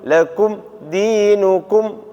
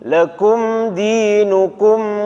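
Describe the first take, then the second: First: The m sound is cut off abruptly. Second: The m sound is held and flows slightly. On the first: The speaker calls it wrong. "Jangan dibaca ... Enggak seperti itu. ... agak disentak enggak boleh" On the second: The speaker calls it right. "mimnya ini ada ngalinya dikit"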